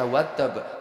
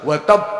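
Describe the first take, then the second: First: The word is said in a plain, ordinary way. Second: The word is said with strong, intense force. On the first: The speaker calls it wrong. "nggak boleh biasa watab" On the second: The speaker calls it right. "harus watab"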